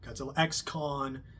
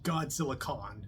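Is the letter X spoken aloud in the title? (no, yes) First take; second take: yes; no. First: The X is spoken aloud between names. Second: The X is left out, silent. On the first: The speaker calls it wrong. "not Godzilla X Kong" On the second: The speaker calls it right. "it's just Godzilla Kong"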